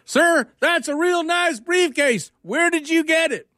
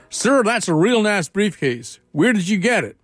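First: Very high, very slow Georgia drawl, mocking; exaggerated Georgia accent. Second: Put-on slow drawled Georgia accent, pitched up. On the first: Georgia guy repeating himself, high slow Georgia drawl. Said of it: "he shrugs and says". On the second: Georgia guy to professor, slow Southern drawl. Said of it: "the Georgia, uh, guy says to the professor".

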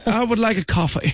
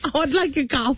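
First: High, prim British accent, imitating mom; mock British accent. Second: Quieter echo in a put-on British accent; mock British accent. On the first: Mother ordering coffee at Disney, mock British accent. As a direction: put on a posh-sounding British accent for the order. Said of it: "elle avait un accent british". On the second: Host echoing the mother's order, mock British accent. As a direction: repeat the order like a Bridgerton lady. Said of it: "d'où vient cet accent-là, la Bridgerton".

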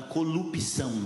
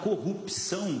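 First: "corrupção" said as "colupição", l for r. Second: Said in the usual way. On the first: Shown as a demonstration. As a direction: say "corrupção" with l in place of the rr. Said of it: "vai falar corrupção". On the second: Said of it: "Vai falar corrupção".

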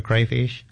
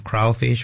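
First: CRAYFISH said with an "ay" first vowel; variant pronunciation. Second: CRAWFISH said with an "aw" first vowel; variant pronunciation. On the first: Guest offers the host the other way, variant pronunciation "crayfish". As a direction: say "crayfish" with CRAY rhyming with day. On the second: Guest offers the host one way to say it, variant pronunciation "crawfish". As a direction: say "crawfish" with CRAW rhyming with law. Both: Shown as a demonstration. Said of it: "however you say it".

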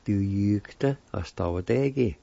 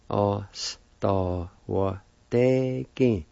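First: Du jugte oss da var degen at normal speed, falling on degen; whole word at pace. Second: Oss da var degen drawn out very slowly, falling on degen. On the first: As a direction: run the whole word together. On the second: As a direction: stretch it out slowly for learners. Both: Shown as a demonstration. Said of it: "And together".

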